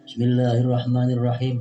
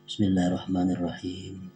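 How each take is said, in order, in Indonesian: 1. Dibaca keras, sama kerasnya dengan bagian lain. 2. Dibaca pelan, lebih pelan daripada bagian sesudahnya. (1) "banyaring bismillahnya" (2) "tapi begimit"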